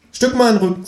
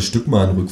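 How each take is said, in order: First: Very high, squeaky-pitched kangaroo; kangaroo character voice. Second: Said in the usual way. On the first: A narrator's reading. Kangaroo asking narrator to shift over, high cartoon voice. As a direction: play a cheeky talking kangaroo. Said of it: "sagt das Känguru".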